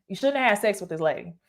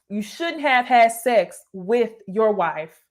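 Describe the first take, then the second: First: Fast. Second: Drawn-out "had" with weight; slow, stressed "had". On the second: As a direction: lean slowly on "had". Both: Shown as a demonstration.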